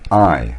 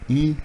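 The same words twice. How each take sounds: First: The vowel sounds like 'eye'. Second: The vowel sounds like 'ee'. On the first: The speaker calls it right. "se prononce avec un I, comme dans nine" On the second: The speaker calls it wrong. "si vous dites I, on comprend que c'est la lettre E"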